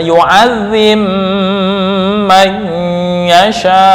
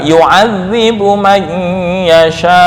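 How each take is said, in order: First: The b sound merges into the following m. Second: The b sound is kept clear before the m. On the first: This follows the reading tradition that uses major assimilation. "imam Susi, ntar membaca" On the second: This follows the reading tradition that has no major assimilation. "jadi tetap dibaca idhar"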